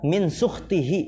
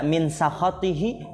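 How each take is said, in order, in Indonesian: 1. Kata ini dibaca dengan vokal 'u': sukhtihi. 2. Kata ini dibaca dengan vokal 'a': sakhatihi. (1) "bisa dibaca min sukhtihi" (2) "bisa dibaca min sakhatihi"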